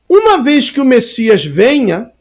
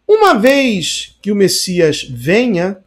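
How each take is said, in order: First: It is read at an ordinary pace. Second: It is read slowly with clear pauses.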